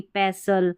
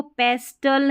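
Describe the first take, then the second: First: पेसल with a silent T; correct pronunciation. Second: पेस्टल with the T sounded; wrong pronunciation. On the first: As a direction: say पेसल, no T after S. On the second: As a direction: say पेस्टल with a clear T after S. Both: Shown as a demonstration. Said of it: "इसको पेस्टल नहीं".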